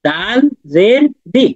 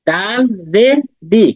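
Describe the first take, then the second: The two takes are said the same way.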